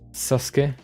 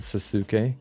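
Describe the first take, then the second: First: The middle vowel is dropped, two syllables. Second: Every vowel is pronounced, three syllables. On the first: This is how it is said in Japanese. "you just leave out a letter" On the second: This is how it is said in German. "That's what we like always said in, in German"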